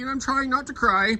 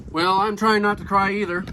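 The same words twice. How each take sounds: First: A hint of a raised, teary old man voice; lightly voiced old man holding back tears; Henry, mock tearful. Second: Said in the usual way. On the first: Henry's line, then repeated plainly.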